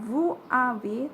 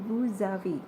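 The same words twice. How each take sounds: First: The s of vous is silent, no linking. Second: The s links to avez as a z. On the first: The speaker calls it wrong. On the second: The speaker calls it right. "berubah menjadi Z pembacaannya"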